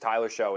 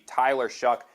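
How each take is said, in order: First: The surname ends with an open vowel sound. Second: The surname ends with a k sound. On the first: This is how the name would be said if spelling ruled. "is how this this should be pronounced, but it's not" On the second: This is how the name is actually pronounced. "his name is not pronounced Tyler Show"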